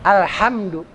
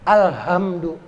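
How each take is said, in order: First: The h is a tight, raspy sound from the throat. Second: The h is a soft breathy sound from the chest. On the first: The speaker calls it right. "tempat keluarnya di sini, tenggorokan" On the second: The speaker calls it wrong. "yang besar tadi yang bulat alhamdu itu di sini"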